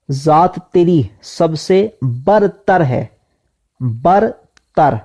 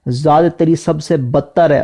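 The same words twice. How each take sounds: First: برتر with a clear r, "bartar", drawn out slowly; slow on "برتر", roll the r; correct pronunciation. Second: بدتر said "badtar" instead of bartar; wrong pronunciation. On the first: Teacher stressing the right word to students, slow careful pronunciation. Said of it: "اس تلفظ کا خیال". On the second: Teacher warning students of the wrong reading, mistaken pronunciation. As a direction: mispronounce "برتر" as "بدتر". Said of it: "کسی نے بدتر سمجھ لیا". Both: Shown as a demonstration.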